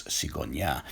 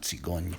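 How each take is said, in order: First: "cigonia" with the last syllable sounded; old French. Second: "cigogne" with a silent final e, two syllables; modern French. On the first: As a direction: end "cigonia" on a clear -ia. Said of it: "it's cigonia". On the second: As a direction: end "cigogne" on a soft gn. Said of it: "So it's not cigogne". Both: Shown as a demonstration.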